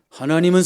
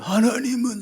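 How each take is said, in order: First: A strong, youthful voice. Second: A weak, shaky old man's voice. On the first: The speaker calls it wrong. "이런 소리가 아니라" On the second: The speaker calls it right. "이렇게 나올 거예요"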